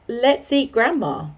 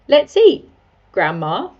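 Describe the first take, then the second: First: There is no pause before Grandma. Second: There is a pause before Grandma.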